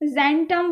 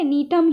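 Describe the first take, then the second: First: The word begins with a J sound. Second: The word begins with an N sound. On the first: The speaker calls it wrong. "जेंटम वेंटम मत बोलना" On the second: The speaker calls it right. "नीटम ही बोलना है। ... जी जो है वो silent है"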